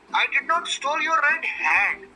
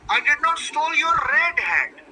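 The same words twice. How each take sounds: First: The stress is on "hat". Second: The stress is on "red".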